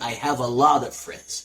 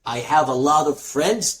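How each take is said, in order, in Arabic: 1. "A lot of" تُوصل ببعضها بسرعة وتُختزل. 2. "A lot of" تُقال كاملة وبعناية. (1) "لما بتنطقها بسرعة" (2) "فبدل ما تقول"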